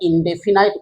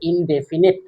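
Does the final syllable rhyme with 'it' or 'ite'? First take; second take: ite; it. First: The last syllable has a long 'eye' vowel. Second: The last syllable has a short 'i' vowel. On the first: The speaker calls it wrong. "আমরা ইনডেফিনাইট উচ্চারণও করি" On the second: The speaker calls it right. "কিন্তু actually উচ্চারণটা হচ্ছে ইনডেফিনিট"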